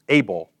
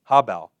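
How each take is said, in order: First: The word is said with an English pronunciation. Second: The word is said with its Hebrew pronunciation. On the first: "the way we pronounce things in English, we would pronounce it as able" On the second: "the word for breath here is habel"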